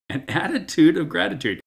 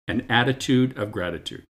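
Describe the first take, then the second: First: Attitude of gratitude, high and ringing; emphatic repeat. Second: Said in the usual way. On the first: Acted.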